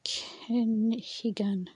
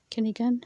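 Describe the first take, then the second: First: Kenhigan drawn out slowly, every syllable; slow careful word. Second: Kenhigan said quickly, h nearly dropped; word at normal pace. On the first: Learner sounds out Kenhigan slowly. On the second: Learner repeats Kenhigan at normal pace. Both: Shown as a demonstration.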